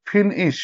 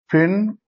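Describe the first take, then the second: First: "ফিনিশ" lightly split as ফিন-ইশ; divided into syllables. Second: "ফিনিশ" as ফিন, long pause, ইশ; broken into syllables. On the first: Teacher reading the second line, word lightly divided by syllable. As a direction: say "ফিনিশ" as two short beats. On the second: Teacher writing out syllables, word split by a long gap. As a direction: pull "ফিনিশ" apart into two separate beats. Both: Shown as a demonstration. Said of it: "ভাঙতে পারবো syllable অনুযায়ী".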